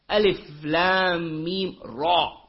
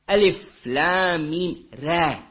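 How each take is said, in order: First: The letters are pronounced heavy, with a thick mouth. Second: The letters are pronounced light, with a thin mouth. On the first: "with tafkhim, with heavy mouth" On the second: "tarqiq, light mouth"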